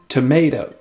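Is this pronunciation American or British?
American. It is said in American English.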